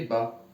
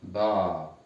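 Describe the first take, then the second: First: BA with a short A; short vowel. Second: BA with the A drawn out; long vowel. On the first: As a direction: say BA briefly, vowel not held. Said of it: "Si j'ajoute fatha". (BA avec un a bref) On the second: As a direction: hold the A of BA long. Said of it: "On prolonge". (BA avec un a prolongé) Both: Shown as a demonstration.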